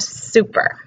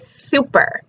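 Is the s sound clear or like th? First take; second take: clear; like th. First: The s is said clearly, tongue behind teeth. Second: The s is said like th, tongue between teeth.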